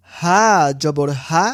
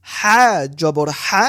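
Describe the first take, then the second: First: Said in the usual way. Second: হা জবর হা breathed from the middle of the throat; throaty ha. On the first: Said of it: "স্বাভাবিকভাবে". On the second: Shown as a demonstration. Teacher contrasts the throat হা for students. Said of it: "গলার মাঝখান থেকে".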